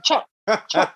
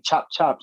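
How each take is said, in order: First: Put-on tiny high-pitched kid voice; squeaky toddler chirp, imitated; imitating little girl. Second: Said in the usual way. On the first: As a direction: mimic a small child's sharp little chops. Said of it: "So she be like". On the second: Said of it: "She's saying".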